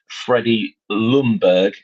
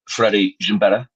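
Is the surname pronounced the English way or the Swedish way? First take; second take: English; Swedish. First: The surname is said with English pronunciation. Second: The surname is said with Swedish pronunciation.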